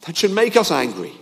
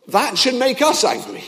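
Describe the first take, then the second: First: Firm again on "us"; stress on us. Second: "us" pressed hard and higher in pitch, falling off at the end; "us" as the high, heavy peak of the line; stress on us. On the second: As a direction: lean on the word "us". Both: Shown as a demonstration.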